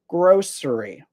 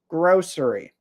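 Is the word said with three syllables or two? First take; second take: three; three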